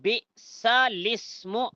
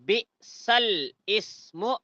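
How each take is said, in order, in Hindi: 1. शब्द बिना विराम के सहजता से जुड़े हुए बोले जाते हैं। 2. शब्द एक विराम के साथ अलग-अलग बोले जाते हैं। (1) "ऐसा पढ़ना सही है" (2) "ऐसा पढ़ना गलत है"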